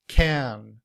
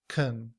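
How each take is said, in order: First: The vowel is a full, open 'a' sound. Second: The vowel is reduced to a weak schwa. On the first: "In citation form" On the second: "In reduced form, the A sound becomes the schwa"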